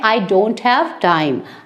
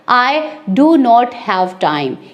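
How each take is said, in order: First: "Do not" is contracted into one syllable. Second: "Do not" is said as two full words.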